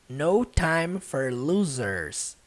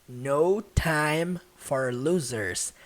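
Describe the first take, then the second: Both takes have the same delivery.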